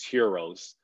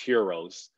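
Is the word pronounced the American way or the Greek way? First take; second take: Greek; Greek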